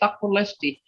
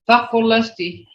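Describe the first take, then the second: First: The word is said with its plain tone. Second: The word is said with a changed, emphatic tone. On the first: The horse is pretty. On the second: The horse is beautiful, beyond just pretty. "See how that tone, that changes the tone"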